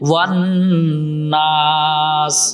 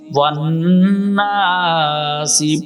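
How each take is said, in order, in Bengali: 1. শেষ শব্দটি s ব্যঞ্জনে শেষ হয়। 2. শেষ শব্দটি একটি ছোট i স্বরে শেষ হয়।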